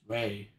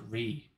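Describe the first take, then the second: First: The vowel sounds like 'ay'. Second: The vowel sounds like 'ee'. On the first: The speaker calls it right. "It's Ray" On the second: The speaker calls it wrong. "How do you pronounce it Ree?"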